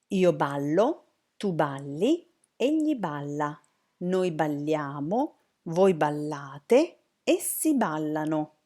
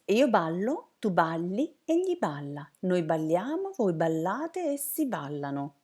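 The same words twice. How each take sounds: First: It is said more fluently, at moderate speed. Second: It is said very quickly.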